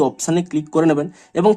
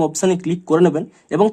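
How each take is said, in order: Both takes have the same delivery.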